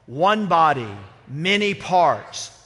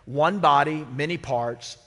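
First: It is said loudly, with some volume. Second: It is said at a normal speaking volume.

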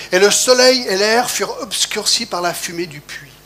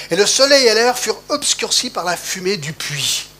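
The two takes are said the same way.

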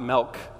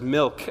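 First: The word is said in a thick Wisconsin accent. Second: The word is said in a general American accent. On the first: The speaker calls it wrong. "and not milk" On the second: The speaker calls it right. "it was milk"

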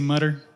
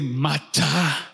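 First: It is said in an American accent. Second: It is said in an African accent.

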